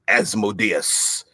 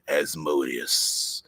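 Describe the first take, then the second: First: This pronunciation of the name sounds plain. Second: This pronunciation of the name sounds sinister. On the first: "as opposed to" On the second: "I like Asmodeus because I think it comes comes across a little like uh, sinister"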